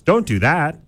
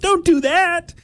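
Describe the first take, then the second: First: It is said in a normal speaking voice. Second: It is said in a whiny nerdy voice.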